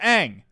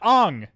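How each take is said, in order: First: The name is said with an 'a' vowel. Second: The name is said with an 'o' vowel. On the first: The speaker calls it right. "I know it's pronounced Ang" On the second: The speaker calls it wrong. "in the movie, they pronounce it Ong"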